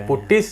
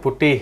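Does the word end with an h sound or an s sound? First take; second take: s; h. First: The word ends with an s sound. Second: The word ends with an h sound.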